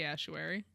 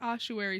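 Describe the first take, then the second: First: The first vowel is said like 'ass'. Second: The first vowel is said like 'oss'. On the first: "but it might be assuary" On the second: "I think ossuary sounds correct"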